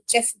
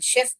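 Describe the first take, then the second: First: The word begins with a sharp 'ch' sound. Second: The word begins with a soft 'sh' sound. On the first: The speaker calls it wrong. "मगर इसको चेफ बोलते हैं" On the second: The speaker calls it right. "शेफ बोलना चाहिए"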